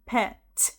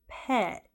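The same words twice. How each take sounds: First: The final T is clearly released. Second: The final T is held without release. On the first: The speaker calls it wrong. "You're not going to hear a native English speaker in America say the sounds of the letter T" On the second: The speaker calls it right. "It's like we're about to say the T sound, but we don't say the T part"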